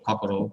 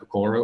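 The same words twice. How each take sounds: First: It is said with a Japanese-style pronunciation. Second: It is said with an English-style pronunciation.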